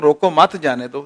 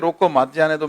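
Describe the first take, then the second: First: "मत" punched loud with a rise, closing off "रोको मत"; group "रोको मत" together, then "जाने दो"; let-them-go reading, loud rising "मत" before "जाने दो"; stress on मत. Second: "रोको" set apart, then "मत जाने दो" as one group; stop-them reading, "रोको" on its own before "मत जाने दो"; pause after रोको. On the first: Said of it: "मैं कहता हूँ". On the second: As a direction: break the phrase after "रोको", keeping "मत" with "जाने दो". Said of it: "आप कहते हैं". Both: Shown as a demonstration.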